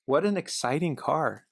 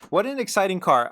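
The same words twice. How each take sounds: First: Slow admiring. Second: Higher and louder, full enthusiasm; excited. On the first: Car fan admiring the Infiniti, slow and savouring. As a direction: draw it out slowly, savouring it. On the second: Car fan gushing over the Infiniti, excited and loud. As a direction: burst out with the praise. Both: Shown as a demonstration.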